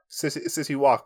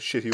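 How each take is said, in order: First: Said in the usual way. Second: "Shitty Walk", City's s turned to sh. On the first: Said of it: "but he pronounces it Shitty Walk". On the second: Shown as a demonstration. Explaining cartoon owner's "Shitty Walk", sh replacing s. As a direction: begin "Shitty" with a sh sound. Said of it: "he pronounces it Shitty Walk".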